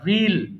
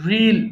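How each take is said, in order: First: It is said like 'reel', one drawn-out vowel. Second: It is said like 'reel', one drawn-out vowel.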